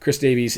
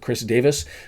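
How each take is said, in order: First: The surname is said with an English pronunciation. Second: The surname is said with a Welsh pronunciation. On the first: "English or North American pronunciation" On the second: "Welsh pronunciation"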